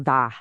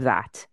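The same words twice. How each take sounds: First: "tha" said with the final T dropped, Dublin style; working-class Dublin "tha" with no T. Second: Said in the usual way. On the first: Shown as a demonstration. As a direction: say "tha", cutting off the T at the end. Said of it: "the type of accent where you drop the T Hs". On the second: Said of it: "instead of".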